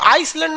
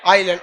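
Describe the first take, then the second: First: An S sound is heard before the L. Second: No S sound is heard before the L. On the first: The speaker calls it wrong. "इसको आइसलैंड नहीं पढ़िएगा" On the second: The speaker calls it right. "आइलैंड में ना एस silent रहता है"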